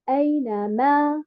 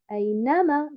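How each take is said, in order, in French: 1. L'accent est sur la troisième syllabe. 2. L'accent est sur la deuxième syllabe. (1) "Et non pas" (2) "J'ai mis un nombre sur harakat al-noun"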